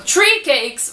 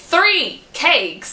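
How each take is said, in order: First: "three" said as "tree"; hard T in place of the TH in "three"; wrong TH as T. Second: Slow, careful "three cakes"; correct TH in three. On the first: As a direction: show the mistake, "tree cakes". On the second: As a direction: model the right "three". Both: Shown as a demonstration. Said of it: "o mais perto do que realmente é".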